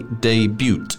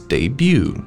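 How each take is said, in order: First: The final T sound is pronounced. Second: The final T sound is silent. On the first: The speaker calls it wrong. "So you don't say debut" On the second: The speaker calls it right. "it's debut"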